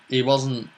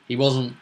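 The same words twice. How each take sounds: The two takes are said the same way.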